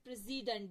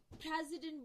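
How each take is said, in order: First: The stress is on the second syllable. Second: The stress is on the first syllable. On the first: "एस पे जोर देते हैं" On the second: "पी पे जोर देते हैं"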